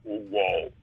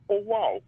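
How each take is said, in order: First: Very low mimicked synth "wow"; deep keyboard sample impression; imitating pitched-down sample. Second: Higher mimicked synth "wow"; high-pitched keyboard sample impression; imitating pitched-up sample. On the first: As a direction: play the sample on a low key. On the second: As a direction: play the sample on a high key. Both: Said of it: "And he just turned the".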